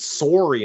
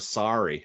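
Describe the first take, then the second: First: Sorry is said with a Canadian pronunciation. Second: Sorry is said with a non-Canadian pronunciation. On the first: "we pronounce it sorry" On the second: "instead of sorry"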